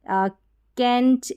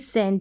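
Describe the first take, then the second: First: The word begins with a k sound. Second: The word begins with an s sound. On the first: The speaker calls it wrong. "यहाँ पर कैंट ऐसे नहीं बोलेंगे" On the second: The speaker calls it right. "यानी सी का उच्चारण स है"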